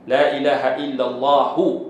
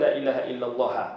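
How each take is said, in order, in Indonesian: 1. Kata terakhir berakhir dengan vokal u. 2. Kata terakhir berakhir tanpa vokal u.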